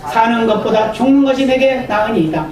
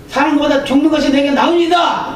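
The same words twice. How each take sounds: First: Said in the usual way. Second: The verse raised higher, Jonah shouting back; defiant outburst. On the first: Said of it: "first reading of the verse". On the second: Retold or imitated. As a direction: fling 나으니이다 at God in protest. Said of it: "또 이렇게 큰 소리를 칩니다". (하나님께 큰소리치는 요나)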